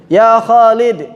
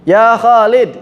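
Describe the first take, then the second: No difference in how they are said.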